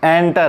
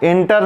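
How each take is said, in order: First: The first vowel sounds like 'e' in bed. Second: The first vowel sounds like 'i' in bit. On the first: The speaker calls it right. "एंटर है।" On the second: The speaker calls it wrong. "इंटर नहीं पढ़ना है इसको"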